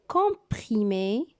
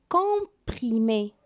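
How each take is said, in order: The two takes are said the same way.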